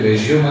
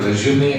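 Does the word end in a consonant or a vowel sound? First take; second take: consonant; vowel. First: The word ends on a consonant sound. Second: The word ends on a vowel sound. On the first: To start again after stopping. "ఒకటి రెజ్యూమ్ అని పలుకుతారు" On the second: A document describing one's background. "రెండు రెజ్యూమే అని పలుకుతారు"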